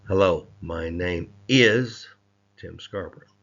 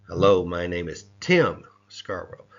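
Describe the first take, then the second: First: The stress is on "is". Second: The stress is on "Tim".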